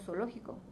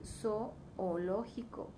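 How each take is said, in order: First: The two o vowels merge into one sound. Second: The two o vowels are pronounced separately. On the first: The speaker calls it wrong. "Tendemos a juntar el sonido" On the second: The speaker calls it right. "en realidad tendríamos que decir zoológico"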